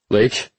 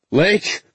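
First: Calling her name, worried. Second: High, loud angry shout; angry yell. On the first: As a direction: call out across the water. Searching the dark water. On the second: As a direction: yell her name in anger. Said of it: "I yelled, angry". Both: Acted.

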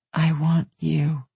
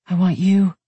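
First: Slow repeat. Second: Breathy, louder plea; on a breath. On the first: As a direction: draw each word out slowly. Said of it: "Say it again". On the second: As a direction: push it out on a breath. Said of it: "she said on a breath". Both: A narrator's reading.

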